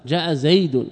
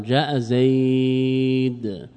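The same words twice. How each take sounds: First: زيد pronounced "zaydun", with the final un sounded; full tanwin ending. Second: زيد drawn out as "zaaayd", ending on bare d; pause with sukun. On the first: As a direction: say جاء زيد as "jaa'a zaydun". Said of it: "أصل ماذا؟". (جاء زيد بتنوين الضم ظاهرا) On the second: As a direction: stretch زيد very slowly, dropping the "un". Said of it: "حينئذ سكنت الدال". (جاء زيد بالوقف على دال ساكنة) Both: Shown as a demonstration.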